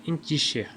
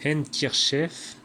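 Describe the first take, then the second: First: Handkerchief dit à l'anglaise, comme « inkichè »; Handkerchief avalé, sans d ni r; prononciation anglaise. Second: Handkerchief lu lentement, toutes les lettres sonores; Handkerchief détaillé comme il s'écrit; comme écrit. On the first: (Handkerchief prononcé à l'anglaise, « inkichè ») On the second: (Handkerchief prononcé lettre par lettre, lentement) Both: Shown as a demonstration. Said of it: "se prononçait".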